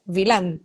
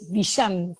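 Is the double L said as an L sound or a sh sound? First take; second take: L sound; sh sound. First: The double L is said as an L sound. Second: The double L is said as a sh sound. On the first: This is how the name is said in Italy. "if you go to Italy, for sure, you are going to hear what you have just said" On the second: This is how the name is said in Argentina. "here in Argentina, the double L sounds like sh"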